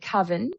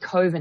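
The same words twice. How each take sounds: First: The first syllable has a short 'uh' vowel. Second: The first syllable sounds like 'cove'. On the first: "I would pronounce it coven" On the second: "when you say coven, I think of a cove"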